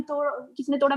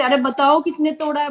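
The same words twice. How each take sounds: First: Soft, quiet demo of the same question; speaking softly. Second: High-pitched demo yell of a question; mock shout. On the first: Showing the quiet way she asked the housemate. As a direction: ask it gently, much softer. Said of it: "मैं धीरे-धीरे बोल रही हूँ". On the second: Showing how she would shout at a housemate. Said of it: "बताओ कि मैं चिल्ला रही हूँ". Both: Shown as a demonstration.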